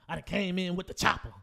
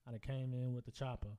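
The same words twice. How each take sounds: First: It is delivered with lively, catchy energy. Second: It is delivered in a flat monotone.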